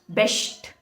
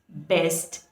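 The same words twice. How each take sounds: First: The s before the t sounds like sh. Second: The s before the t sounds like s. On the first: The speaker calls it wrong. "people pronounce these words like" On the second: The speaker calls it right. "it should be"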